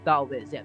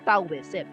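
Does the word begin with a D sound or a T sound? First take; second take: D sound; T sound. First: The word begins with a D sound. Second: The word begins with a T sound. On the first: "ang proper na pronunciation sa kanya ay Taoism. Letter D siya. Da" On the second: "ang literal na spelling niya ay Tao Taoism. So letter T siya"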